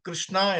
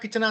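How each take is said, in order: First: The kr cluster is pronounced clearly and in full. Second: The kr cluster is simplified to a plain k sound. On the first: This is how people from Kerala say it. The speaker calls it right. "കൃഷ്ണ എന്ന് കറക്റ്റായിട്ട് ഉച്ചരിക്കാൻ" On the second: The speakers do not know the proper pronunciation. The speaker calls it wrong. "കിച്ചണ കിച്ചണ എന്നേ പറയത്തുള്ളൂ"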